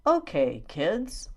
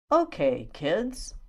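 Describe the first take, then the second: No difference in how they are said.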